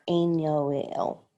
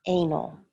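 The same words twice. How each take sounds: First: Anal drawn out slowly, three syllables; slow wrong take of anal, stretched; wrong pronunciation. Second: Anal said as AY-nl, two syllables; anal, clipped to two syllables; right pronunciation. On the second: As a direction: say anal short, AY-nl. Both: Shown as a demonstration. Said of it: "not anal".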